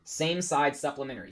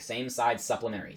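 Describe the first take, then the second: First: Said in the usual way. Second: "Same side supplementary" with every s hissed long; drawn-out s like a snake. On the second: Shown as a demonstration. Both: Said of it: "Say it like a snake".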